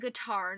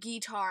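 First: The first syllable has a short 'gih' vowel. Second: The first syllable has a long 'gee' vowel. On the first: The speaker calls it right. "It's a guitar" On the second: The speaker calls it wrong. "not guitar. ... Is there an E in there anywhere?"

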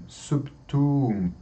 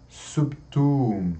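No difference in how they are said.

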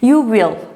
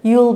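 First: Will is said as a full separate word. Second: Will is contracted into one syllable with you.

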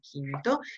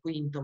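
First: It begins with a plain k sound. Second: It begins with a kw sound. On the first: The speaker calls it right. "ma è quinto" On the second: The speaker calls it wrong. "pronuncia non è quinto"

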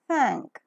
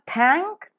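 First: The th is a soft fricative with airflow. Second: The th is a hard stop without airflow. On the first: The speaker calls it right. "it is thank" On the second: The speaker calls it wrong. "So it's not thank"

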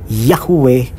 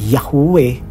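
No difference in how they are said.

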